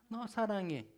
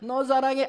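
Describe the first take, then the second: First: It is said at a normal, softer volume. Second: It is said louder than before.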